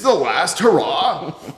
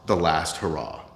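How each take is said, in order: First: It is said in a dramatic, put-on announcer voice. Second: It is said in an ordinary speaking voice.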